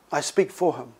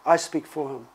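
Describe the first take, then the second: First: "for" stressed, set against "about". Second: "for" lands again, firm and low; stress on for. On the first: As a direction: lean on "for" in I speak for him. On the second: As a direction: repeat I speak for him, pressing "for". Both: Shown as a demonstration. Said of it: "There's a difference".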